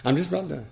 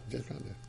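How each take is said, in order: First: Said in the usual way. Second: Done much softer, almost to himself; quiet repeat. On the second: Real, not acted. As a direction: murmur it as an aside. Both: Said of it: "that's the first bell".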